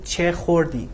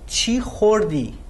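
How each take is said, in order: First: The first word ends in an 'eh' vowel. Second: The first word ends in an 'ee' vowel. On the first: This is the written form. "instead of saying" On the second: This is the everyday spoken form. "In spoken Farsi, che is pronounced chi"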